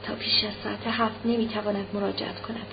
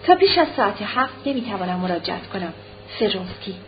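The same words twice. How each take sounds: First: Much softer private repetition; saying to herself. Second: Understated telegram reading at ordinary volume; reading telegram aloud. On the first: Anna alone crumpling the telegram, quietly repeating it to herself. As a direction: drop the volume, repeat it inwardly. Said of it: "ورقهٔ تلگراف را در دست مچاله کرده و پیش خود". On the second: Anna reading Vronsky's telegram, reading it out plainly. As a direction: read out the message evenly, ending on the signature. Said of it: "او با خوشحالی این چند کلمه را خواند". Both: A narrator's reading.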